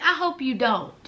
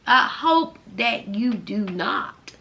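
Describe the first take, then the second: First: Said in the usual way. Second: Slow, spelled-out "I hope that you do not"; emphatic restatement. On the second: Real, not acted. Vlogger restates her hope for the ex-prisoner, slowly and emphatically. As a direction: stretch out "do not", each word set apart.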